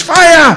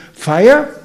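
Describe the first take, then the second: First: High, loud acted shout of fire; screamed alarm. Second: Higher, rising query on "Fire?"; questioning, unalarmed. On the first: Somebody runs into the temple room, screaming alarm. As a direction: cry out to warn a whole room. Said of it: "runs in the door and screams". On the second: Acted. Merchant type hearing of a fire, questioning. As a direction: ask it, don't shout it. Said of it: "few who will think".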